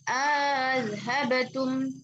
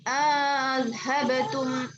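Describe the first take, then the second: First: A long vowel is inserted, and the second hamza is softened. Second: A long vowel is inserted, and the second hamza is softened.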